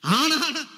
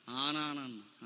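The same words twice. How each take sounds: First: ఆ punched high and loud; stress on ఆ. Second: Soft, low, trailing off; hushed reply. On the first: Shown as a demonstration. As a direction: hit the word ఆ hard and high. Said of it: "ఆ నాన్న అంటే". (ఆ మీద గట్టి ఒత్తిడి) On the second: Retold or imitated. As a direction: say it quietly like a shy girl. Sister's hushed reply on phone. (మెల్లగా, తక్కువ స్వరంలో)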